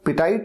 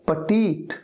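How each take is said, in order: First: The last syllable sounds like 'tight'. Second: The last syllable sounds like 'teet'. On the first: The speaker calls it wrong. "पिटाइट नहीं है" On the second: The speaker calls it right. "ये है पटीट"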